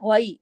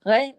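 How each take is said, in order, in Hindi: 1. स्वर धीरे से 'a' से 'i' की ओर सरकता है। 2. स्वर एक सपाट, स्थिर 'e' ध्वनि है। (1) "गैन से गई, क्योंकि याइलीन... आवाज में नरमी से मोड़ पैदा हो जाता है" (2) "गए गए गलत है, मजहूल लहजा है"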